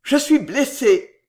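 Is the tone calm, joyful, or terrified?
terrified. It is low, hoarse and terrified. The speaker is frightened by the wound. "jetée tout bas d'une voix rauque, était un cri de terreur"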